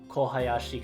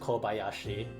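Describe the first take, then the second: First: The middle syllable starts with an h sound. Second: The middle syllable starts with a b sound. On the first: The speaker calls it wrong. "kind of doesn't flow as well" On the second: The speaker calls it right. "ha turning into ba"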